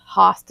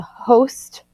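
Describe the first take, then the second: First: "host" as HAHST; "host" with an open short o; short-o pronunciation. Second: "host" with a long o; "host" as HOHST; long-o pronunciation. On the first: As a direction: say "host" with the vowel of "hot". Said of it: "the root is also pronounced host". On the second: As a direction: say "host" to rhyme with "most". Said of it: "sometimes the root is also pronounced". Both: Shown as a demonstration.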